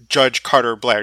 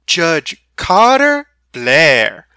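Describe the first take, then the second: First: It is said plainly, without a Southern tone. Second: It is said with a grand Southern charm.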